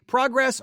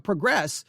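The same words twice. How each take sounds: First: Progress stressed high on the first syllable; noun pronunciation. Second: Progress with stress on the second syllable; verb pronunciation. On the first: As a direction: hit the first syllable of Progress, PROG-ress. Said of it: "depending if it's using as a noun". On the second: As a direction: say progress as the verb, pruh-GRESS. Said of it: "noun or a verb". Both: Shown as a demonstration.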